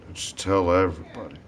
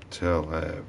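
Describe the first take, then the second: First: Said in the usual way. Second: Softer, lower repeat; quiet. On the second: Shown as a demonstration. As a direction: drop it to a murmur.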